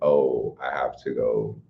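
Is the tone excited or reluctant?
reluctant. It is said in a reluctant, dutiful tone.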